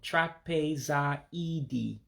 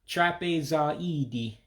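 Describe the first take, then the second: First: The word is said slowly. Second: The word is said at normal speed.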